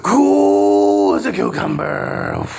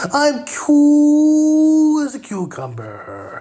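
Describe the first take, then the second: First: Low, slow, drawn-out mock calm; sarcastic low slow parody. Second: High, slow, drawn-out mock calm; sarcastic high slow parody. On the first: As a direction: drop it low and stretch it out. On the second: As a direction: stretch it up high like forced calm.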